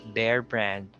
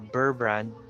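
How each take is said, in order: First: The first word sounds like bear. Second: The first word sounds like burr. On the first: The speaker calls it right. "it's Bear brand" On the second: The speaker calls it wrong. "or Burr brand"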